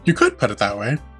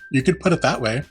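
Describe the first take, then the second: First: The sentence is said with a natural intonation. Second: The sentence is said with an odd intonation. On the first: The speaker calls it right. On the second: The speaker calls it wrong.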